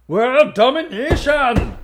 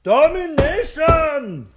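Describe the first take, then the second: First: Much higher, slow drawn-out megalomaniac; hammed-up evil mastermind proclaiming domination; mock villain. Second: Much higher, even slower drawn-out proclamation; hammed-up evil mastermind, bigger still; mock villain. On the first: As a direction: savour the word like a cartoon villain. Doctor Loeb's answer. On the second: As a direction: stretch it out grandly like a cartoon villain. Doctor Loeb repeats.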